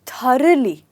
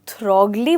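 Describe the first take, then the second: First: The gh is barely heard, almost silent. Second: The gh is said as a hard g. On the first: The speaker calls it right. "आप कहेंगे थरली" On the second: The speaker calls it wrong. "थ्रोगली बोलेंगे तो ये गलत होगा"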